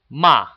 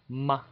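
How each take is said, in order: First: It is said with a sharp falling fourth tone. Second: It is said lightly with the neutral tone. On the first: "The fourth tone is ma" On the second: "the fifth tone would be light"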